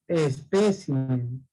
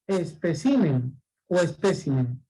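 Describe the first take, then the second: First: Espécimen slow and low with stress on PE; correct stress. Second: Especímen stressed on CI, then espécimen stressed on PE; wrong then right stress. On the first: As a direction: draw out espécimen, leaning on PE. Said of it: "La palabra es espécimen". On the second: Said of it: "¿Y cómo es la palabra, dijimos?". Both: Shown as a demonstration.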